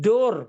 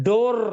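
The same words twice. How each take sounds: The two takes are said the same way.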